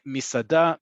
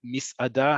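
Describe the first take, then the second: First: "misada" run together as mi-sa-da; elided "misada". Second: "misada" with a little break before "ada"; break inside "misada". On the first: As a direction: say "misada" without the inner break. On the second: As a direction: split "misada" into mis, then ada. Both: Shown as a demonstration. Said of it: "however you wanna pronounce it".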